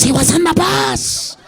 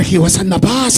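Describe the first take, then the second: First: Put-on higher, slow Puerto Rican accent on bus, stretched out; drawn-out Puerto Rican voice, pitched up; a Puerto Rican guy repeating where he saw it. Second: Put-on low, loud Puerto Rican accent on bus; lowered Puerto Rican voice; a Puerto Rican guy telling where he saw it. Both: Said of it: "Puerto Ricans are gonna be like".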